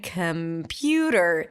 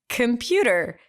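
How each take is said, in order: First: The word is said very slowly and drawn out. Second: The word is said at normal speed.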